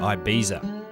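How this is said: It is said with an English pronunciation. This is how English speakers say it. "English speakers tend to say Ibiza"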